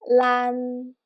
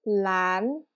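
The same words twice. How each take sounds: First: Sustained level pitch on "lan"; first tone. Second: "lan" dipping low, then gliding up; second-tone "lan", pitch climbing to the end; rising tone. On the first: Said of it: "that's what we call the first tone". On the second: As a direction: say "lan" like a question. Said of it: "pronounce like a rising tone". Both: Shown as a demonstration.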